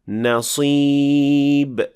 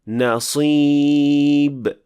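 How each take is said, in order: First: The s sound is heavy and emphatic. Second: The same.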